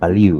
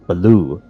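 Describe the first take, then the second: First: The word ends with an 'ew' glide. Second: The word ends with a plain 'oo' sound. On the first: The speaker calls it right. "he cannot say ew" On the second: The speaker calls it wrong. "He would say like Baloo"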